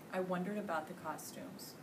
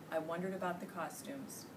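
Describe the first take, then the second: No difference in how they are said.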